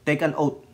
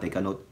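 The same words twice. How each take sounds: First: Careful Take an oath; corrected phrase. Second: Quiet mumbled Take a note; slip of the tongue. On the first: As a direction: Take an oath said clearly, oath as one word. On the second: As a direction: Take a note muttered softly, like a tongue-twisted mistake. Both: Shown as a demonstration. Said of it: "Take an oath pala".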